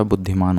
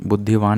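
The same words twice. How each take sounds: First: बुद्धिमान with "maan" at the end; correct form. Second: बुद्धिवान with "vaan" at the end; wrong form. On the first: Teacher correcting students, बुद्धिमान ending in "maan". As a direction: put an m sound in बुद्धिमान. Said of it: "बुद्धिमान होता है". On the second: Teacher rejecting a common error, बुद्धिवान ending in "vaan". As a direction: put a v sound in बुद्धिवान. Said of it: "नहीं होता". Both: Shown as a demonstration.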